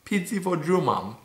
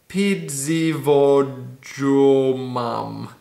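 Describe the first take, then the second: First: Said in the usual way. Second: Very slow sounding out. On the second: Shown as a demonstration. Sounding out a Polish word for viewers, very slowly. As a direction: drag each syllable out slowly.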